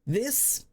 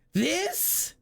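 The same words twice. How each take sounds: First: Said in the usual way. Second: High, rising incredulous question; high-pitched disgusted disbelief; appalled disbelief. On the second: Real, not acted. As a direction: shoot the pitch up in scandalised query.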